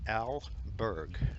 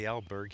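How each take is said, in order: First: The name is said slowly, two clear parts. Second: The name is said fast, run together. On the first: The speaker calls it right. "and it's Al Berg" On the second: The speaker calls it wrong. "Sometimes I say it too fast and it sounds like Albert"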